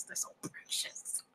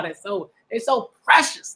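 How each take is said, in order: First: Soft, slow breathy whisper. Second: Said in the usual way. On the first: Real, not acted. Reader gushing over the children, whispering slowly. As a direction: hush it like a tender secret.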